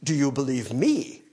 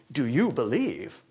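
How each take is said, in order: First: "Do you believe me?" with "me" stressed and a rising end. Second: "Do you believe?" with "you" leaned on and a falling end; stress on you. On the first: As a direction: put the weight on "me" in "Do you believe me?". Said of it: "The emphasis is on". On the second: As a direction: put the weight on "you" in "Do you believe?". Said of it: "The emphasis, I don't think, is on". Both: Shown as a demonstration.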